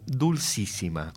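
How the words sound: It is pronounced the Spanish way. "sin esa S madrileña actual, Dulcísima, como hablamos nosotros"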